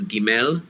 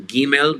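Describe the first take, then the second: First: Gimel with the second syllable leaned on; stress on last syllable. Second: Gimel with the first syllable leaned on; stress on first syllable. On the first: Teacher showing the accent to avoid, last syllable of Gimel stressed. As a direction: push the accent onto the end of Gimel. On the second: Teacher showing students the accent, first syllable of Gimel stressed. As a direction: hit the start of Gimel, let the end drop. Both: Shown as a demonstration. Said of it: "lean on the first syllable".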